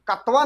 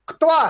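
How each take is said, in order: First: A full vowel separates the k and t. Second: The k joins straight onto the t. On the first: The speaker calls it wrong. "कत्वा नहीं" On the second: The speaker calls it right. "बल्कि क्तवा है"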